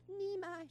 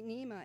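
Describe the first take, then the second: First: Put-on Nima said in a high, little-girl voice; toddler calling Nima. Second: Said in the usual way. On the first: Toddler tugging at grandma, Nima in a high child voice. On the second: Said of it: "she calls me Nima".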